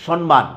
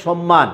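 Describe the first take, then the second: First: সম্মান with an n sound, "shon-man"; mispronounced সম্মান. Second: সম্মান with both m's, "shom-maan"; correct double m. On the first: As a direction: say সম্মান wrongly as "shon-maan", n before m. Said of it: "আমরা অনেককেই উচ্চারণ করতে দেখি". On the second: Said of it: "দুটাই ময়ের উচ্চারণ হবে". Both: Shown as a demonstration.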